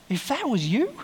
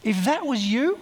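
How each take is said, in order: First: Even higher, rising "you" then breaking off; rising question. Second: Higher, rising "you" with disbelief; rising question. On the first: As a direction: push "If that was you" higher and leave "you" hanging. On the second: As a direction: pitch "If that was you" up high and let "you" climb. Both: Real, not acted. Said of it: "repeated rhetorical question".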